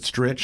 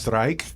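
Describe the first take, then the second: First: The vowel is short, like in 'stitch'. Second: The vowel is long, like in 'strike'. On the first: The family has always said it this way. "we always pronounced it Stritch in my family" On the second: Outsiders read the spelling this way. "people look at it and they go"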